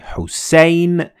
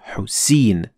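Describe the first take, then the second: First: The vowel glides as a diphthong. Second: The vowel is a single long vowel. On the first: The speaker calls it right. "we say Hussein" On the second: The speaker calls it wrong. "and not Hussein"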